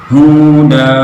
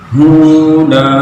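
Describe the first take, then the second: No difference in how they are said.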